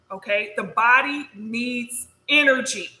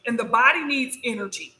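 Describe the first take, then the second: First: "the body needs energy" repeated slowly, leaning on "energy"; slow emphatic repeat. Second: Said in the usual way. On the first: Shown as a demonstration. Teaching viewers about food, slowly stressing "energy". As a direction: drive home "energy" slowly.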